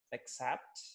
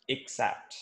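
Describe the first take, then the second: First: Teacher models accept as uh-ksept; accept, first word. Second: Teacher models accept as ik-sept; except, second word. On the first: English teacher demonstrating the first word accept. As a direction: accept said uh-KSEPT, soft schwa start. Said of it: "the first word is". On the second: English teacher demonstrating the second word except. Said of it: "the second word is". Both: Shown as a demonstration.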